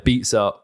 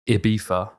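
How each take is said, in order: First: It is said the American way, with a z sound. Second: It is said the Spanish way, without a z sound. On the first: "Ibiza is the American pronunciation" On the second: "the Spanish say Ibiza, so they say it with the F, not the Z"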